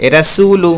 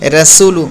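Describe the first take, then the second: No difference in how they are said.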